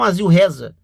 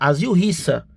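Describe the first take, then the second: First: The second word sounds like 'reza'. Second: The second word sounds like 'rissa'. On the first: The speaker calls it wrong. "E não" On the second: The speaker calls it right. "A pronúncia correta seria"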